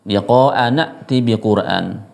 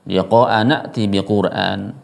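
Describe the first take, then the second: The two takes are said the same way.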